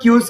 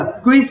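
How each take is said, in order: First: Long U after "ky" in क्यूज; the mistaken reading क्यूज, "kyooz"; mispronunciation. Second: "kw" then I in क्विज; corrected pronunciation. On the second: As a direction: say क्विज as "kwis". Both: Shown as a demonstration. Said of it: "sorry, इसे क्विज पढ़ेंगे".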